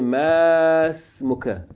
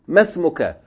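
First: The first vowel is held long. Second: The first vowel is kept short. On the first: The speaker calls it wrong. "You don't say masmuka" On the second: The speaker calls it right. "you pronounce it short"

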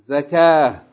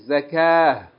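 Both takes have the same delivery.

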